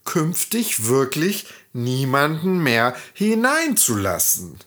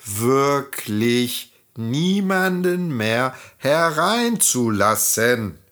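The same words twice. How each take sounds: First: Beseeching. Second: Slow, pleading. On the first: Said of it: "sie beschworen Schneewittchen". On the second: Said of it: "beschworen die Zwerge es noch einmal". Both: A narrator's reading.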